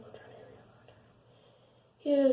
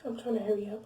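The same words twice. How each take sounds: First: Slow, high drawn-out whine; mock drawn-out. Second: Said in the usual way. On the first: Shown as a demonstration. Telling viewers she's rushing the story, slow and high. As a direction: drag it out teasingly.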